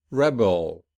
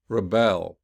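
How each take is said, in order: First: "Rebel" with strong first syllable, weak end; stress on first syllable. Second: "rebel" with weak start, strong second syllable; stress on second syllable. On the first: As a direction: noun form, hit the start of "Rebel". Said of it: "the noun will be". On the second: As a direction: verb form, hit the end of "rebel". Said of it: "whereas the verb will be". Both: Shown as a demonstration.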